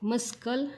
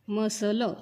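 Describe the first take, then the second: First: The word is said with a k sound. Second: The word is said without a k sound. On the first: The speaker calls it wrong. "मस्कल नाही" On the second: The speaker calls it right.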